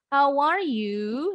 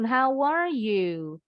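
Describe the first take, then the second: First: The pitch rises at the end. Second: The pitch falls at the end. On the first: The speaker calls it wrong. "Bacanya jadi bukannya" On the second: The speaker calls it right. "Harus intonasinya turun"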